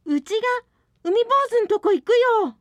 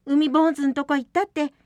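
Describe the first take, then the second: First: High and loud, quick; resolute declaration. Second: Steady, lightly raised; calm reassurance. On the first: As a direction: blurt out a brave decision. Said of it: "松が慌てて". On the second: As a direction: soothe them, it'll be fine. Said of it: "どうせ誰かが行かなきゃ". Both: Acted.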